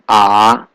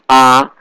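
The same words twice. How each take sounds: First: The pitch dips down then rises. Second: The pitch stays level and flat. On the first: "Third tone is going down, going up" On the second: "The first tone is flat"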